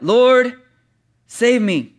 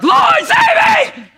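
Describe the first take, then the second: First: Said in the usual way. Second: Very high, loud drowning shriek; panicked scream. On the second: Shown as a demonstration. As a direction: scream for rescue, stretched out in hammed-up panic. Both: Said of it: "It's probably more like".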